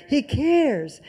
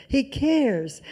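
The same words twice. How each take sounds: The two takes are said the same way.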